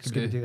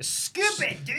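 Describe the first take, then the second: First: It is said flatly with little emphasis. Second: It is said loudly with strong emphasis.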